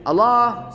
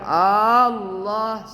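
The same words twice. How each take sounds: First: The L is single, not doubled. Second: The first vowel is drawn out long. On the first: "Nggak boleh juga tidak pakai tasydid Allah, salah juga" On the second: "Nggak boleh panjang Allah, salah"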